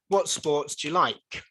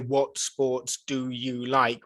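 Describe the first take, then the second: First: Do and you are squashed together into one. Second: Do and you are said fully and separately. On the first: The speaker calls it right. "We say ... so we say dia" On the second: The speaker calls it wrong. "we don't say"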